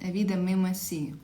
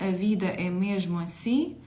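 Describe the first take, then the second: First: The zh sound in mesmo is dropped entirely. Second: The zh sound in mesmo is clearly pronounced.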